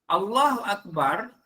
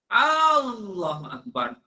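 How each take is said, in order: First: The vowels are kept at normal length. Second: A vowel is drawn out long. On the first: It declares that God is the greatest. The speaker calls it right. "maknanya Allah Maha Besar" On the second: It asks whether God is the greatest. The speaker calls it wrong. "aku salah. Lepas tu dia panjang"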